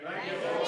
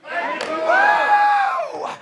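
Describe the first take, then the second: First: Said in the usual way. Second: High, loud, jubilant shout; lottery winner joy. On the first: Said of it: "everybody say with me". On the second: Real, not acted. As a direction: shout it like you won the lottery. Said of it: "like you just won the lottery".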